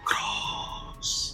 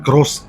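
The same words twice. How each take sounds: First: It is said in an eerie, horror-film voice. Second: It is said in an ordinary speaking voice. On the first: "നമ്മുടെ horror മൂവിയിലൊക്കെ കേൾക്കുന്ന പോലെ" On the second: "ഞാൻ cross എന്ന് പറയുന്ന മാതിരിയല്ല"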